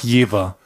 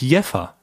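First: The middle consonant is a voiced v sound. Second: The middle consonant is a voiceless f sound. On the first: "Es wird mit W gesprochen" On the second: "dass es doch anders ausgesprochen wird"

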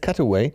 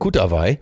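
First: The word is pronounced the English way. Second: The word is pronounced the German way. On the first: The speaker calls it right. "es heißt Cutaway" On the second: The speaker calls it wrong. "Der trägt einen Kutawai"

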